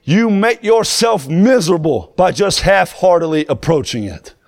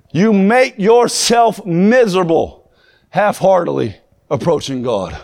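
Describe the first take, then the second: First: Said in the usual way. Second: Much slower, every word weighed and leaned on; slow emphatic repeat. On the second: Shown as a demonstration. Preacher repeating the point to his congregation, slow and heavy. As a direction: drag it out so it sinks in.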